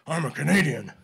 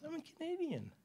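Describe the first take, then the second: First: Much louder, firm and declarative; firm Clint Eastwood. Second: Very high and soft, timid; tiny meek squeak of a voice; meek little voice. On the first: Shown as a demonstration. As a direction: stand your ground and say it hard. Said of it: "that's the way you have to answer those guys". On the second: Retold or imitated. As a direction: shrink into it like a mouse. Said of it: "She got a little meek voice like this".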